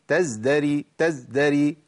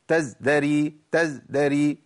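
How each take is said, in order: The two takes are said the same way.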